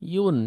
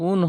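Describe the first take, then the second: First: The syllable starts with a 'y' sound, 'yun'. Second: The syllable starts with a plain vowel, 'un'. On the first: The speaker calls it right. "আর ইয়া দু পেশ ইউন" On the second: The speaker calls it wrong. "ইয়া দুই পেশ উন হয় না"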